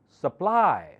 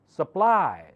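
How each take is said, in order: The two takes are said the same way.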